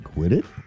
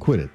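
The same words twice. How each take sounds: First: The voice rises at the end, like a question. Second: The voice falls sharply, like an exclamation.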